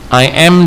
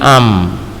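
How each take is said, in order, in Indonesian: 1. Diucapkan sebagai dua kata lengkap. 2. Diucapkan sebagai satu suku kata singkat yang disingkat.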